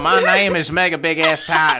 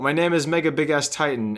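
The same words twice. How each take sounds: First: It is read in a heavier redneck accent. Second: It is read in a plain, ordinary accent.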